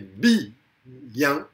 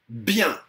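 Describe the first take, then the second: First: The word is said as two syllables. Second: The word is said as one syllable. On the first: This is a diérèse. "il s'agit d'une diérèse" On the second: This is a synérèse. "ça c'est une synérèse"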